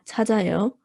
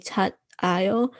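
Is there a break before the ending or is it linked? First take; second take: linked; break. First: The final consonant carries over into the ending. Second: The final consonant stops before a separate ending. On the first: The speaker calls it right. "you say it all together, it carries over" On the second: The speaker calls it wrong. "might be tempted to say tat ayo, but that's not following pronunciation rules"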